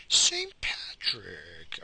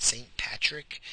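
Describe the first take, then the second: First: Drawn-out name. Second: Said in the usual way. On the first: Shown as a demonstration. Mulling the name over while searching, dragged slowly. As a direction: say Saint Patrick very slowly, stretching every sound.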